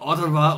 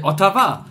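First: It is said with an English pronunciation. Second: It is said with a German pronunciation.

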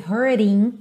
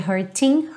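First: The t is a quick flap sound. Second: The t is a clear t sound. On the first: "esse hurting, rarará, no T" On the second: "ao invés de hurting"

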